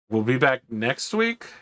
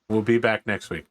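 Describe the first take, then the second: First: The voice rises at the end, like a question. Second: The voice falls at the end, like a statement. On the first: It is asked as a question. "the first time I said it with an inflection to indicate it was a question" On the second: It is stated as a fact. "The second time, it was a statement"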